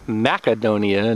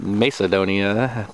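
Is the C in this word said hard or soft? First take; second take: hard; soft. First: The C is said as a hard K sound. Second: The C is said as a soft S sound. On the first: The speaker calls it right. "I reckon that's pronounced Macedonia, because the C would be hard" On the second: The speaker calls it wrong. "not Macedonia"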